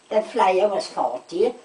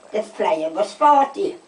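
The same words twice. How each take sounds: The two takes are said the same way.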